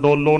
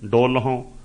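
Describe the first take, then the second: First: No h sound is heard before the final vowel. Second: An h sound is heard before the final vowel. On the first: The speaker calls it wrong. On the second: The speaker calls it right.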